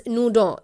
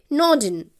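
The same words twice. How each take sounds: First: Nodin said the French way, as "noo-DOH"; French pronunciation. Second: Said in the usual way. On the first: Shown as a demonstration. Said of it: "pronounce it as Nodin in French". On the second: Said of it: "You can pronounce it as".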